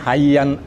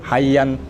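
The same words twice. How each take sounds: First: The word ends with an n sound. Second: The word ends with an n sound.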